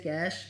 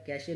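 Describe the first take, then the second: First: It is said as one syllable, cash. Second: It is said as two syllables, cash-ay. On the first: The speaker calls it right. "इसे कैश बोला जाता है" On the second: The speaker calls it wrong. "कैशे नहीं बोला जाता"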